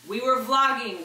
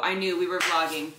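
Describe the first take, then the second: First: "We were vlogging" higher and louder, stress on "were"; excited repeat. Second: Said in the usual way. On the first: Real, not acted. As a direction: punch "were" with glee.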